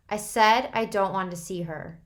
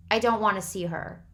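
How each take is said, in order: First: Louder, rising refusal. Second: Firm. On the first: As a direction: push back louder. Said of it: "His voice was rising". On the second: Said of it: "he said firmly". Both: A narrator's reading.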